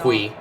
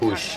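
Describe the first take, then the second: First: The name ends in a 'y' sound. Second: The name ends in an 'sh' sound. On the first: This is how Americans would say it. "In America, we would just pronounce that Puy" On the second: This is how it is said in Catalonia. "in Catalonia, apparently it's pronounced Push"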